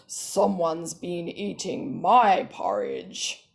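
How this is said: The voice is pitched very deep. A large father character is speaking. "He's got a really deep pitched voice"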